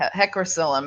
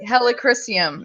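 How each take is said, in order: First: The word is said as hecrocillum. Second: The word is said as helichrysum. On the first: The speaker calls it wrong. "I always say it the other way" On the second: The speaker calls it right. "helichrysum is the way you say it"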